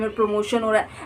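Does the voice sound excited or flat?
flat. It is said flatly, without enthusiasm. The speaker does not really feel it is true. The speaker calls it wrong. "ऐसे नहीं बोलना है"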